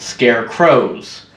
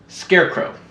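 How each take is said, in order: First: Both words carry their own stress. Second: Only the first part carries stress.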